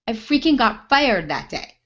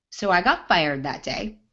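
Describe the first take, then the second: First: Freaking punched, louder and higher; emphatic retelling of the firing; stress on freaking. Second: Said in the usual way. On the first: Shown as a demonstration. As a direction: hit freaking hard.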